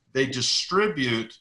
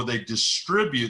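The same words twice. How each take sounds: First: "distribute" drawn out slowly for emphasis; slow down on "distribute" as the key word; stress on distribute. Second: Said in the usual way. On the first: Real, not acted. Teacher repeating an important word for listeners, slow stress on "distribute". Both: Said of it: "that's an important word".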